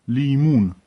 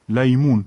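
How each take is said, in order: First: لیمون said "lee-MOON"; long "ee" in the first syllable of لیمون; LIMUN variant. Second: لیمون said "lay-MOON"; LAYMUN variant. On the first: (تلفظ «لیمون» با «ی» کشیده) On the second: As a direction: open "ay" glide in the first syllable of لیمون. (تلفظ «لیمون» به شکل «لَیمون») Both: Shown as a demonstration.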